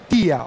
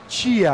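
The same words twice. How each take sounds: First: The t is a plain, crisp t sound. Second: The t is said like 'ch', as 'tchia'. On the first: The speaker calls it right. "O som de T correto é o tia" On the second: The speaker calls it wrong. "A gente sempre fala o som de T paulista, que é o T C H"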